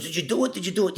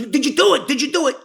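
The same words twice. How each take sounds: First: Said in the usual way. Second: Much higher, louder, urgent; pressing hard for the answer; eager demand. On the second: Retold or imitated. Joey pressing the teller about the job, higher and urgent.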